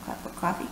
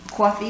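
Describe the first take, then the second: First: Said in the usual way. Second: Coffee with a New York "kwaw" vowel; a New Yorker ordering coffee; New York accent. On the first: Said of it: "Coffee, you say in New York?". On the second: Shown as a demonstration. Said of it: "you say in New York?".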